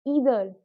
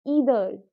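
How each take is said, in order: Both takes have the same delivery.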